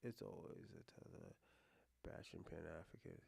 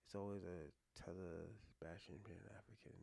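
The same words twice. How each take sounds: First: Much lower and much softer, reading the message to himself; quiet reading. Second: Whispered reread of the message, no voice. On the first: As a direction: murmur the chat line under your breath. First read of a chat message. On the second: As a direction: breathe the words out puzzled, barely audible. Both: Real, not acted.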